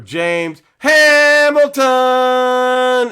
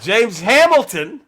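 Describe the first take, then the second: First: It is said like a Pistons arena announcer. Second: It is said in his normal voice.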